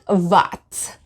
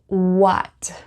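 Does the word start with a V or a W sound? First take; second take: V sound; W sound. First: It begins with a buzzing V sound. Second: It begins with a rounded W sound. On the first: The speaker calls it wrong. "It's not what. It's not v v what" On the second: The speaker calls it right. "So what"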